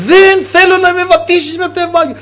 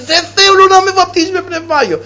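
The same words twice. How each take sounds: First: The same refusal shouted once more; retold shouting. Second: A man crying out against his baptism; retold shouting. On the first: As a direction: cry it out in stubborn refusal. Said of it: "άρχισε να λέει". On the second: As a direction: shout it as a stubborn refusal. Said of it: "άρχισε να φωνάζει".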